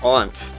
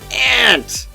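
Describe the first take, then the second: First: It is said with a British pronunciation. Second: It is said with an American pronunciation.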